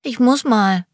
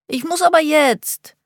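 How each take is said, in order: First: Put-on high piping little boy, urgent; small boy pleading he needs to go; squeaky child voice. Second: Put-on very high whining little boy, stress on aber; whiny child voice. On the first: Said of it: "mit piepsiger Stimme". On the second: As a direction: push the plea higher, whining and insistent. Child insists he needs toilet. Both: A narrator's reading.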